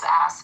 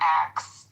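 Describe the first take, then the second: First: The word ends with an s then k sound. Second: The word ends with a k then s sound. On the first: The speaker calls it right. "The word is ask" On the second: The speaker calls it wrong. "pronunciation is not ax"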